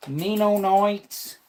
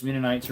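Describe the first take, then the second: First: "Mennonites" drawn out high as "mee-no-noits". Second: Said in the usual way. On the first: Shown as a demonstration. Streamer echoing the word "Mennonites", high slow accented "mee-no-noits".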